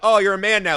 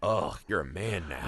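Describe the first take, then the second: First: It is said in a cheerful, celebratory tone. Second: It is said in a sad, gloomy tone.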